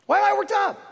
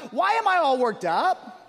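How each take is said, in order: First: Louder higher repeat. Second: Said in the usual way. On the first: Shown as a demonstration.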